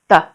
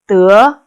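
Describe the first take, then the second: First: The syllable is said with a light neutral tone. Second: The syllable is said with a rising tone. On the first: It links a verb to how the action is done. "neutral tone without uh, tone mark, neutral tone" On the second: It means to get. "second tone"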